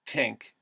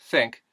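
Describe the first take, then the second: First: It starts with t and has an ih vowel. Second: It starts with th and has an ih vowel.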